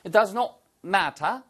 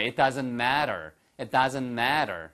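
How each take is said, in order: First: Matter said the British way, crisp t, ma-tah; slow British model of matter; British-accent demo of matter; British pronunciation. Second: Matter said the American way with a flapped t, mad-er; slow American model of matter; American-accent demo of matter; American pronunciation. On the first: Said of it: "똑같이 영국식 발음이잖아요". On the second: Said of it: "한번 미국식으로 한번 해보실까요". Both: Shown as a demonstration.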